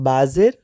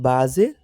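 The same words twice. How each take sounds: The two takes are said the same way.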